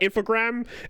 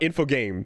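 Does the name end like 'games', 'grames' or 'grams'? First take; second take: grams; games. First: The name ends sounding like 'grams'. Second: The name ends sounding like 'games'. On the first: "it's not grams" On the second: "it's not games"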